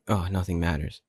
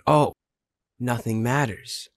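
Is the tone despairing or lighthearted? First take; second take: despairing; lighthearted. First: It sounds gloomy and despairing. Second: It sounds light and carefree.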